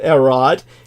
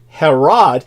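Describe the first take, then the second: First: The word starts without an H sound. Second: The word starts with an H sound. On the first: This is the original Greek way of saying it. "that's the correct pronunciation of his name ... the H is silent" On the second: This is the American way of saying it. "Americans would say Herod"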